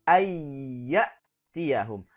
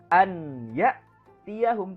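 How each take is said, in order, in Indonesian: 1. Bunyi n menyatu menjadi bunyi y ganda. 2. Bunyi n dilafalkan terpisah sebelum y. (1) "tapi ayya tiyahum. Dimasukkan ke dalam huruf ya"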